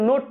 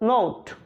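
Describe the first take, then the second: First: The vowel is a short plain o. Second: The vowel is a long gliding o. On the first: The speaker calls it wrong. "আসলে নোট না" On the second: The speaker calls it right. "উচ্চারণটা নোট"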